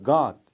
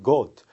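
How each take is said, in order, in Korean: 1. 모음은 열린 'ah' 소리예요, 미국식이에요. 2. 모음은 둥근 'o' 소리예요, 영국식이에요.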